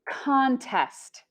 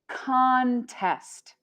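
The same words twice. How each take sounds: Both takes have the same delivery.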